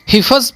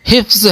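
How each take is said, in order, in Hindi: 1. f और z के बीच एक छोटा स्वर डाला जाता है। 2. f और z बिना किसी स्वर के एक साथ जुड़े रहते हैं। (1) "हिफज़ पढ़ने लगे हैं, जो गलती है" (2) "फे साकिन है"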